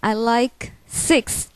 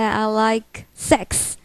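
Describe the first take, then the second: First: The last word has a short i vowel. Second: The last word has a short e vowel. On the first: The speaker calls it right. "the number six" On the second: The speaker calls it wrong. "some people might say"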